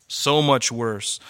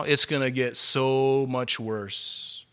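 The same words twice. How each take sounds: First: Slow grave echo. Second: Slow grave warning. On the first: Echoed warning. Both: Real, not acted.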